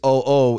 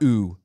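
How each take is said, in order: First: Two separate o vowels are pronounced one after another. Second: The two letters merge into a single oo vowel. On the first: The speaker calls it right. "Each vowel has its sound, and they don't run together" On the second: The speaker calls it wrong. "It's not oo"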